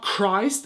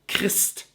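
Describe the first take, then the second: First: It is said with the usual English vowel. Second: It is said with a German vowel, like E. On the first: The speaker calls it wrong. "not Christ as you would say it" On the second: The speaker calls it right. "it's Christ. So you say like the E"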